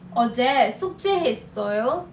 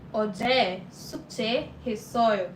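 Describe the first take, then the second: First: The voice rises at the end. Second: The voice falls at the end.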